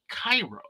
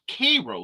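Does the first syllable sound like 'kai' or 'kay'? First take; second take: kai; kay. First: The first syllable sounds like 'kai'. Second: The first syllable sounds like 'kay'. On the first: This is how most people say the name. "the world pronounces it Cairo" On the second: This is how the local people say the name. "They pronounce it Cairo, like the sweet Cairo syrup"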